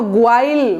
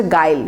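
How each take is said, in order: First: গোয়াইল with a w-glide after the g; spelling-based গোয়াইল, "goo-ail"; wrong pronunciation. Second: গাইল with a silent u, like "guile"; গাইল as "gail", hard g and no glide; correct pronunciation. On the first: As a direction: say গোয়াইল as spelt, sounding the u as "gwa-il". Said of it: "এটা তো খুবই খারাপ উচ্চারণ". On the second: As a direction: say গাইল straight from g to "ai", no w. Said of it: "আসলে হবে গাইল". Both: Shown as a demonstration.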